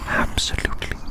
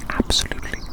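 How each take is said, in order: Both takes have the same delivery.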